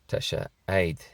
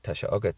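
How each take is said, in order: First: It is said in the Southwest Donegal form. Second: It is said in the standard form.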